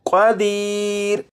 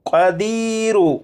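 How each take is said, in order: First: The word stops on a bare final r. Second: The word ends with a short u vowel. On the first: The reciter pauses at the end of the verse. "इसे वक्फ में पढ़ेंगे" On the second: The reciter continues into the next verse. "अगर यहां पर वक्फ ना करना हो तो फिर इस लफ्ज़ को क़ादीर नहीं पढ़ेंगे, बल्कि क़ादीरु"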